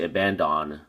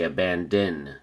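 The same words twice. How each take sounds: First: The last syllable has a full 'on' vowel. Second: The last syllable has a reduced 'in' vowel. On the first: The speaker calls it wrong. "We don't say abandon" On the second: The speaker calls it right. "We say abandon. In"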